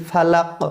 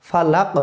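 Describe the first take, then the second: The two takes are said the same way.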